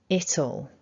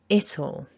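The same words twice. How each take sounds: The two takes are said the same way.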